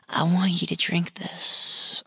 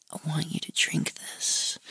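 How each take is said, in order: First: Slow, drawn-out coaxing, lightly acted; mock coaxing. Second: Soft, near-whispered come-on; whispered coaxing. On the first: Retold client urging him to drink, slow mock coaxing. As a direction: coax slowly, voiced rather than whispered. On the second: Retold or imitated. Client to man with closed eyes, whispered coaxing. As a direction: coax in a whisper, acting out the caller.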